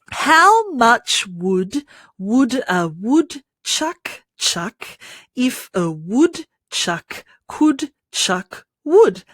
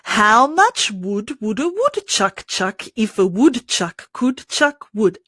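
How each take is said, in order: First: The sentence is spoken slowly. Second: The sentence is spoken quickly. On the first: "So let's start slowly" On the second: "Let's do it faster"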